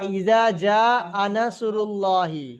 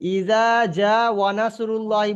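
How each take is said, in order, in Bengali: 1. 'nasrullahi'-র আগে কোনো 'w' শব্দ আসে না। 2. 'nasrullahi'-র আগে একটি 'w' শব্দ আসে। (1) "এটা ইজা জা আনাসুরুল্লাহি" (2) "ইজা জা ওয়ানাসুরুল্লাহি বলেছেন আপনি"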